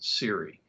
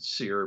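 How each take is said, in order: First: It is said as two syllables, like seri. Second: It is said as one syllable, like seer. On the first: This is how it was said back then. "but we pronounce it SERI" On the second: This is how people say it nowadays. "nowadays I hear people pronounce it SEER"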